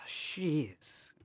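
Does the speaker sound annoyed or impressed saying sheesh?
annoyed. It is said in an annoyed, disappointed tone. Something is irritating or disappointing. "it means like you're annoyed, you're disappointed"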